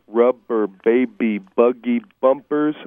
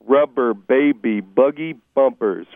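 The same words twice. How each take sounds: No difference in how they are said.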